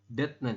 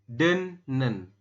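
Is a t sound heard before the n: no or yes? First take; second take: yes; no. First: A t sound is said before the n. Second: The t becomes n, with no t sound. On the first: The speaker calls it wrong. "mungkin Anda akan membacanya adalah det seperti ini" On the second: The speaker calls it right. "Jadi bukan detnen tapi dibacanya adalah den denen"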